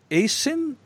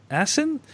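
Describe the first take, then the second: First: "Asin" starting with a long A, "AY-sin"; long-A pronunciation. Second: "Asin" starting with a short flat A, "ASS-in"; short-A pronunciation. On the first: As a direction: say "Asin" with the vowel of "ace". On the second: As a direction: say "Asin" with the vowel of "cat". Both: Real, not acted. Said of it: "you made zero mistakes".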